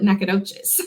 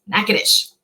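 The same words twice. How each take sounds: First: Nacogdoches with a long "doh-chiz" ending; Texan variant Nacogdoches, four syllables; Texas pronunciation. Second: Natchitoches shortened to NACK-uh-dish; Louisiana pronunciation. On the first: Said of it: "If you are in Texas, you might call it". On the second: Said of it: "but in Louisiana, it's". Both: Shown as a demonstration.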